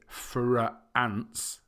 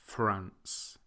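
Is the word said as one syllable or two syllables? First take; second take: two syllables; one syllable. First: The word is stretched into two syllables. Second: The word is said as one syllable. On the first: The speaker calls it wrong. "we don't say France" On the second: The speaker calls it right. "it's just one sound"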